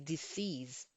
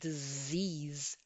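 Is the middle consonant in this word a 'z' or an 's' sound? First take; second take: s; z. First: The middle consonant is a hissing s sound. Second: The middle consonant is a buzzing z sound. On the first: It sounds like a word meaning to die. The speaker calls it wrong. "if you don't pronounce your z, your z sound, you're going to say disease" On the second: It means an illness. The speaker calls it right. "the word disease, which means sickness"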